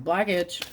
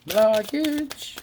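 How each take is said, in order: First: Said in the usual way. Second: "Blockage" repeated higher and louder; emphatic repeat. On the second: Shown as a demonstration. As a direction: punch "Blockage" up high the second time.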